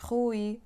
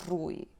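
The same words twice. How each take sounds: First: "Rui" with a throaty h start; back R. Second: "Rui" with a trilled tip-of-tongue R; old-fashioned rolled R. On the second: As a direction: roll the R in "Rui". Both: Shown as a demonstration. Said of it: "somebody would say".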